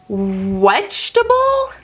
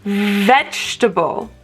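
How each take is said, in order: First: The word begins with a W sound. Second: The word begins with a V sound. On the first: The speaker calls it wrong. "So I had to show him V and a W, and I say W" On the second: The speaker calls it right. "And I go to the V, so I say v, v"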